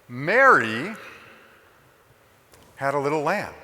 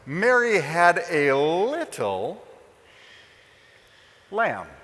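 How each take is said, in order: First: The stress is on the word Mary. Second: The stress is on the word little.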